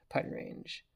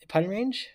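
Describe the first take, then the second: First: Putting range. whispered to himself. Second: High rising putting range?; Putting range? asked high and rising; surprised question. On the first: Player confirming the distance, soft whisper. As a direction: breathe Putting range. under the breath. Answering himself mid-game. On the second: Player checking the distance, high rising question. Asking himself mid-game. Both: Real, not acted.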